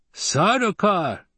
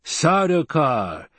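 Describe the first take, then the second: First: High, slow gleeful exclamation; delighted, high-pitched relish. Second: Slow, high, drawn-out musing; pondering aloud, stretched out. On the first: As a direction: draw the name out with glee. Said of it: "there appeared to be glee in his voice". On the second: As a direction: savour the name slowly. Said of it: "the Fremen mused". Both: A narrator's reading.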